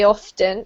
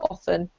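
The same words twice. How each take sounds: First: The word is said carefully and in full. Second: The word is said quickly and lightly. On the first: The word is being focused on. "if you're focusing on that word particularly" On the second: The word is passed over in a general sentence. "if you're skipping over it just in your general sentence"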